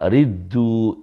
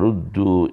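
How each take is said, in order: First: The vowel after r is a front i. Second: The vowel after r is a rounded u. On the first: This is a dialect reading from the Hudhayl tribe. The speaker calls it wrong. "Ini dibaca riddu, dikasrahkan roknya" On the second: This is the standard reading of the seven readers. The speaker calls it right. "Dalam Al-Quran kan summa ruddu ya, didomahkan"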